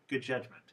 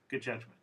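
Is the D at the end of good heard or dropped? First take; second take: dropped; dropped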